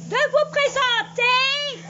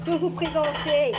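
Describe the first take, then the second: First: Plus fort, plus aigu et lent; répète-le en haussant fort la voix; répété en criant. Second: Said in the usual way. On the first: Acted. (cri aigu et lent) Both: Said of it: "pourquoi elle crie ainsi?".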